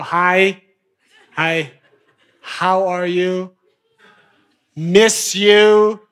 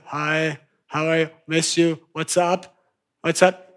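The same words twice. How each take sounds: First: Drawn-out, lingering hello; a coaxing, slow hello; slow flirty greeting. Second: Soft, hurried little greetings; a hushed, eager run of hellos; quick needy texting. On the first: Acted. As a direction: stretch the greeting out like a tease. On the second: Retold or imitated. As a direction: rattle off the needy messages quietly. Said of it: "back to".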